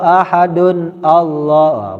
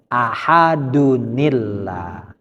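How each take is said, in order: First: The two words are said separately, with no link. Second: The words are joined with an added 'ni' sound. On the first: The speaker calls it wrong. "Bukan, salah nih" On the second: The speaker calls it right. "caranya ahadunillah"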